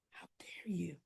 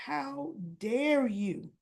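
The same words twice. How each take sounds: First: How dare you? in a voiceless hissed whisper; whispered accusation. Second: How dare you drawn out slowly, a touch of anger; slow mock outrage. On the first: Retold or imitated. Son to father over the affair: whispered accusation. Martin confronting his father. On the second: Son accusing his father of using him: slow, restrained outrage.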